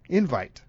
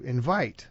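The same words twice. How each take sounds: First: The stress is on the first syllable. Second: The stress is on the second syllable. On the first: It names the invitation itself. "when you send out an invitation, that is an invite" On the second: It names the act of sending an invitation. "that's the accent on the second syllable"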